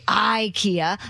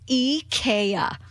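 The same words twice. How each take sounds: First: It is said with the usual English pronunciation. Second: It is said with a Swedish-style pronunciation. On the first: The speaker calls it wrong. "don't say IKEA. That's incorrect pronunciation" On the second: The speaker calls it right. "It's IKEA"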